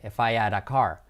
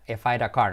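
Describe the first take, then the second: First: "had" said without its H, as 'ad; dropped H. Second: "I had a" run together as I'd-a; contracted I'D A. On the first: Teacher showing the allowed shortcut, "had" with the H skipped. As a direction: link "I" straight into an H-less "had". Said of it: "sí podemos saltar la H". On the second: Teacher showing what we would not say, "I had" contracted to I'd. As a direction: squash "I had" into one word before "a car". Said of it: "en este caso no diríamos". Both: Shown as a demonstration.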